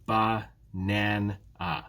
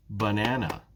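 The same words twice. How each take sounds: First: "ba-nan-a" slowly in three separate beats; syllable by syllable. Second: Said in the usual way. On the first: Shown as a demonstration. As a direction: break "ba-nan-a" apart at each syllable. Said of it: "there are three syllables here". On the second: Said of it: "What about in banana?".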